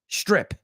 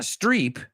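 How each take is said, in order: First: The word sounds like strip, not Streep. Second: The word sounds like the surname Streep. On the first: The speaker calls it right. "it's strip" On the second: The speaker calls it wrong. "it's not streep"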